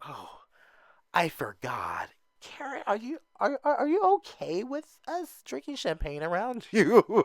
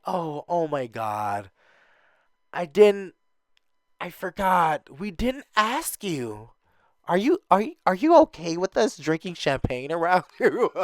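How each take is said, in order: First: Fake dingy girl. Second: Mock ditzy voice with a laugh; fake dingy girl. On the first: Mimicking the newbie asking Karen about champagne, high and airy. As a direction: ham up the fake innocent concern. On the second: Mimicking a ditzy newbie asking about champagne. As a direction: play up the airhead act. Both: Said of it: "the fake dingy girls".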